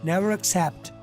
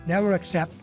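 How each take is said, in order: The two takes are said the same way.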